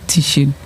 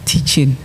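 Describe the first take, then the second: First: The middle consonant is an sh sound. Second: The middle consonant is a ch sound. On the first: The speaker calls it wrong. "It's not teaching. ... not the sh sound" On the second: The speaker calls it right. "It's the ch sound"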